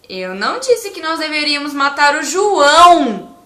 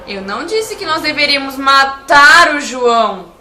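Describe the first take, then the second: First: The word 'João' is stressed. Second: The word 'matar' is stressed. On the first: A different person was the intended victim. "E se eu enfatizar a palavra João" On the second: Something other than killing was meant. "Se eu enfatizar a palavra matar"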